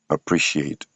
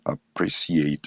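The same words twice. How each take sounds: First: The middle consonant is an sh sound. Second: The middle consonant is an s sound. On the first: The speaker calls it right. "mais vous allez dire appreciate" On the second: The speaker calls it wrong. "vous n'allez pas dire appreciate"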